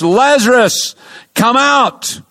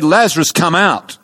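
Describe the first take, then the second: First: Calling Lazarus out of the tomb, higher and a little louder; a raised preacher's cry, pitched high. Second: Said in the usual way. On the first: Retold or imitated. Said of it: "cried out in a loud voice". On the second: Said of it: "Jesus said".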